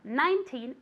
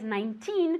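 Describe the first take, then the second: First: The stress is on the first syllable. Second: The stress is on the last syllable. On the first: It is said as part of a year. "en años lo ponemos al principio" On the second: It is said as a plain number. "nineteen con acento al final"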